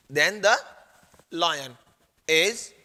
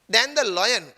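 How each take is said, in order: First: Word by word with long pauses; halting write-along delivery; dictating. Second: Said in the usual way. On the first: Real, not acted. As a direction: dictate THEN THE, LION, IS in separate pieces. Teacher dictates words while writing.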